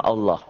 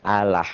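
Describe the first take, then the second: First: "Allah" low, with round O, "alloh"; rounded Islamic "Allah"; thick Allah. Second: "Allah" with open A, "alah"; other-faith "Allah", thin and open. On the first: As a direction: say "Allah" with heavy L and O ending. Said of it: "Agama Islam Allah". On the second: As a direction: say "Allah" with light L and A vowels. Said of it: "bunyinya A". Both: Shown as a demonstration.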